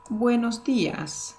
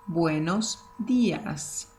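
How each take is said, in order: First: "Buenos días" said clearly, higher; clear model. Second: "buenos días" slowly, each word apart; slow and careful. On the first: Teacher greeting students with good morning. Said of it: "we say". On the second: Teacher drilling good morning slowly. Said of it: "to make it more flowing". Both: Shown as a demonstration.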